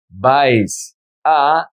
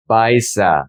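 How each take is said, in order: First: "Vais a" as two separate words, pause between. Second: "vais a" joined as one word, vai-sa; linked words. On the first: Teacher showing the words before joining them, said separately. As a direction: say "Vais", stop, then "a" on its own. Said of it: "how do we pronounce these words together". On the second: Teacher showing how the words sound together, linked. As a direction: carry the s of "vais" into "a". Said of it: "is gonna be". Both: Shown as a demonstration.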